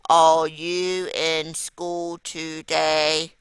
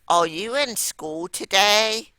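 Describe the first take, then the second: First: It is said in a flat, robotic monotone. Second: It is asked with a lively, questioning voice. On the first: The speaker calls it wrong. "I'd sound like a robot" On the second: The speaker calls it right. "So I changed my voice"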